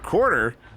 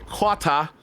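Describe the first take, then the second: First: It is said with an American accent. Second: It is said with a British accent.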